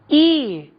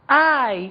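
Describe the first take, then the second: First: The letter is named with a Portuguese vowel. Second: The letter is named with an English vowel. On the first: "In Portuguese, this is E" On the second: "In English, I"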